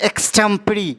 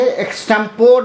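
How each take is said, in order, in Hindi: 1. यह शब्द 'ee' ध्वनि पर खत्म होता है। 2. यह शब्द 'or' ध्वनि पर खत्म होता है। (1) "इसे हम पढ़ेंगे एक्सटेम्परी" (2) "एक्सटेम्पोर नहीं पढ़ के"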